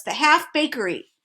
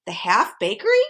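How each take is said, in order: First: The Half Bakery, falling, higher and curt; snapped. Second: The Half Bakery? rising at the end; puzzled question. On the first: The king snaps back at Milo, curt and falling. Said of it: "snapped the king". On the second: Milo questions the king about the bakery, rising puzzled. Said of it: "questioned Milo". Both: A narrator's reading.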